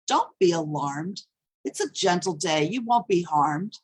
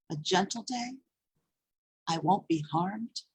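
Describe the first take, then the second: First: Understated reassurance in a poem; lightly voiced soothing, falling to rest; mildly soothing. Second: Softer, questioning lilt rising at each end; quiet, disbelieving poetic echo; doubtful echo. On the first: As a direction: quote someone trying to calm you, evenly stated. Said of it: "Stop trying to soothe me". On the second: Acted. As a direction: echo the reassurance back as a question. Echoes the reassurance back doubtfully.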